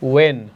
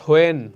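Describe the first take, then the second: First: The word starts with a w sound. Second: The word starts with an h sound. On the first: The speaker calls it right. "ওয়েন, not হোয়েন" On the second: The speaker calls it wrong. "Not হোয়েন"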